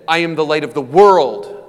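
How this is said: The stress is on the word world.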